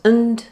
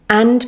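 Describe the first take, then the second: First: The word is said in its reduced weak form. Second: The word is said in its full strong form.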